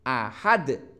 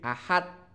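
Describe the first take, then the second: First: The final d has an echoing bounce. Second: The final d stops plainly without a bounce. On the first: The speaker calls it right. "Ada mantulnya" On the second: The speaker calls it wrong. "Tidak boleh"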